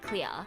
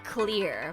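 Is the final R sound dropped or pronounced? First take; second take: dropped; pronounced. First: The final R sound is dropped. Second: The final R sound is clearly pronounced. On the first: This is the Australian-sounding way. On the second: This is the American-sounding way.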